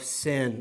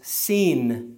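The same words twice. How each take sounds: First: The name is said like the English word. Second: The name is said with its Hebrew pronunciation. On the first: The speaker calls it wrong. "I kind of misled you because that's not even how you pronounce it" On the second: The speaker calls it right. "You pronounce it as Sin in Hebrew"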